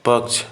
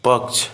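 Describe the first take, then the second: The two takes are said the same way.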